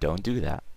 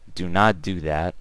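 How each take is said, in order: First: 'Do not' is run together as 'don't'. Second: 'Do not' is said as two full words.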